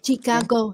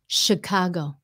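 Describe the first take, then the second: First: The word begins with a "ch" sound. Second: The word begins with a "sh" sound. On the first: The speaker calls it wrong. "người Việt mình hay nói là Chicago nha... cái kêu là chi" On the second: The speaker calls it right. "No, It's a S H sound"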